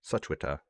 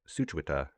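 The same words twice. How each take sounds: First: The W sound is pronounced in the name. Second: The same.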